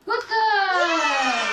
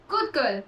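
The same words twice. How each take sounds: First: High squeaky praise, louder; squeaky praising a dog. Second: Said in the usual way. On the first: Real, not acted. Praising dog after eating.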